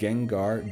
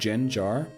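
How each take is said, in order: First: The word begins with a hard G sound. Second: The word begins with a J sound.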